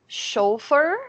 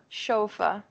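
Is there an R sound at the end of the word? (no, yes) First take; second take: yes; no. First: It ends with an R sound. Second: It ends without an R sound. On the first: "In American English, it's chauffeur with the R at the end" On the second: "remember that this series is British"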